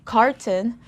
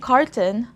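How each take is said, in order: The two takes are said the same way.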